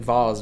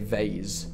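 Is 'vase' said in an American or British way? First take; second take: British; American. First: It is said with a British pronunciation. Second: It is said with an American pronunciation. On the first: The speaker calls it right. "I grew up saying vase" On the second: The speaker calls it wrong. "I got Americanized, and now I say vase"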